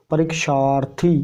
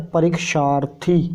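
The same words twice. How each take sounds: The two takes are said the same way.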